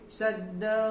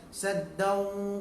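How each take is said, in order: First: The final waw sound is only half pronounced. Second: The final waw sound is fully pronounced. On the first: The speaker calls it right. "masukkan malu sikit je" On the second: The speaker calls it wrong. "kalau saddau dia penuh habis"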